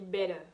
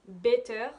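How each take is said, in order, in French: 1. La consonne du milieu est un son D doux. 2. La consonne du milieu est un son T net.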